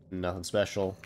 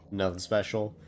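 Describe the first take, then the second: No difference in how they are said.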